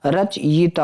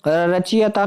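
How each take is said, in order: First: रचयिता as rach-yi-taa; corrected pronunciation. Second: रचयिता as ra-chi-ya-taa; wrong pronunciation. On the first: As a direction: break रचयिता after rach, then yi-taa. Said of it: "होता बच्चे". (रचयिता में 'यिता' साफ़ बोलें) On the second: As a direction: put i after ch in रचयिता. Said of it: "नहीं होता". (रचयिता को 'रचियता' बोलें) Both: Shown as a demonstration.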